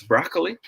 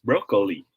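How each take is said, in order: First: Broccoli as BRAHK-lee; open O in broccoli. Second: Broccoli as BROH-kuh-lee; long O in broccoli. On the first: Teacher giving the smiley option, broccoli as BRAHK-lee. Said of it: "if it is pronounced as". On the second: Teacher giving the wink option, broccoli as BROH-kuh-lee. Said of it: "wink face if it is". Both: Shown as a demonstration.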